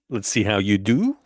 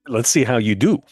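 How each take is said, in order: First: The voice rises at the end like a question. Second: The voice falls firmly at the end.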